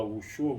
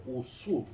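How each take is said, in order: First: "Wushu" said the Portuguese way, with a sh sound; Portuguese pronunciation. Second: "Wusu" with a plain s, no sh; Chinese pronunciation. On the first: Showing how Portuguese speakers say it, "Wushu" with sh. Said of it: "em português a gente fala". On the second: Contrasting Chinese with Portuguese, "Wusu" pronounced with s. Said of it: "mas em chinês é". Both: Shown as a demonstration.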